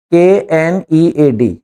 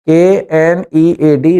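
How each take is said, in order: First: "के एन ई ए डी" spelled out letter by letter, very slow, ending on a fall; slow spelling, falling. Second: "के एन ई ए डी" spelled out letter by letter, very slow, ending on a rise; slow spelling, rising. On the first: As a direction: spell "के एन ई ए डी" slowly, one letter at a time, landing down at the end. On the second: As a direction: spell "के एन ई ए डी" slowly again, lifting the last letter upward. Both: Shown as a demonstration. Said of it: "नीड कहलाता है".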